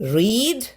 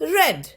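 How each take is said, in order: First: The vowel is long, like 'reed'. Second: The vowel is short, like 'red'. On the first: It is the present form. "V one form റീഡ് തന്നെയാണ്" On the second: It is the past form. "V ടുവും V three ഫോമും റെഡ് എന്നാണ് വായിക്കുക"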